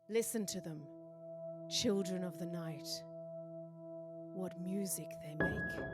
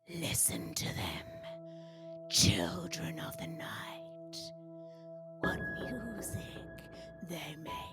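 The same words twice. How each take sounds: First: It is said in her natural voice. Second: It is said in a put-on, witch-like vampire voice.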